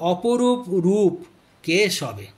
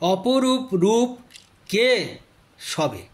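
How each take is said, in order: First: The last word is said whole, without a break. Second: A stressed, questioning ke, then a break before sabe. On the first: Krishna's form is wondrously beautiful. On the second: It asks who the beautiful one standing on the corpse is.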